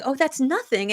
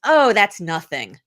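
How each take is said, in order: First: Said in the usual way. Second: Slow, dismissive "Oh, that's nothing" with a falling "Oh"; brushing off a compliment. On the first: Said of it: "we have to stop saying". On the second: Retold or imitated. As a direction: wave the praise away, drawn out and modest. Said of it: "the first thing you would say is".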